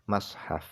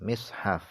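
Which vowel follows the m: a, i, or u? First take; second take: a; i. First: The m is followed by an a vowel. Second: The m is followed by an i vowel. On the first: "dibaca fathah mimnya" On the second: "dibaca kasrah mimnya"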